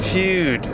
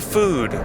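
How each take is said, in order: First: The word has a y sound before the vowel. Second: The word has no y sound before the vowel. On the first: The speaker calls it wrong. "Why does he pronounce it Feud?" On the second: The speaker calls it right. "Just say food"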